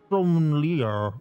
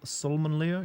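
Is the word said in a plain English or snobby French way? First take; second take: French; English. First: It is said snobbishly, in an exaggerated French way. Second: It is said plainly, in an ordinary English way. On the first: "you're gonna have like a pair of balls in your mouth" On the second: "I just call it"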